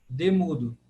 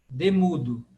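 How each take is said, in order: Both takes have the same delivery.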